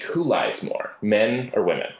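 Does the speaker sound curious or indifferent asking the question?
curious. The question sounds curious and genuinely interested. The asker really wants to know the answer. The speaker calls it right. "okay, she might answer that question"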